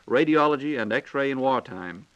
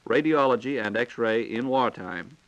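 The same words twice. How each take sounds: The two takes are said the same way.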